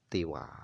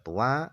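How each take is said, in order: First: First vowel i, no final n sound. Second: First vowel u, no final n sound. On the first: "dibaca kasra ta'nya" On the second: "ada yang membaca tua"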